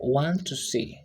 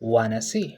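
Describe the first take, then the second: First: Each word is said fully and separately. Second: The words blend into a short reduced form. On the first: "the phrase want to see" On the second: "which transformed to wanna see"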